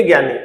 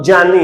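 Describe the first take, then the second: First: ज्ञानी as "gyani", hard g, falling; common mispronunciation. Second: जानी slowly as "jyani", j opening; correct pronunciation. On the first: Teacher pointing at the wrong form, "gyani". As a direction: start ज्ञानी on a "gy" sound. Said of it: "ज्ञानी तो ऐसे लिखा जा". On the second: Teacher correcting students' word, slow "jyani" with j. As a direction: say जानी with j in place of g. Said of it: "अब ये जानी क्यों है". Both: Shown as a demonstration.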